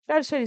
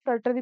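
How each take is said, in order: First: Said in the usual way. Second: "टर्टरी" said with a t in place of the sh sound; variant pronunciation. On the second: Shown as a demonstration. Teacher quoting how many people say the term, variant pronunciation "टर्टरी" with no sh. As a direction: say "टर्टरी" as tur-tuh-ree, without any sh. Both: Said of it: "बहुत सारे लोग टर्टरी भी बोलते हैं".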